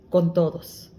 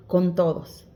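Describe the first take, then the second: No difference in how they are said.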